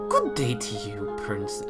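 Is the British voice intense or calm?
intense. It is said in an intense British voice.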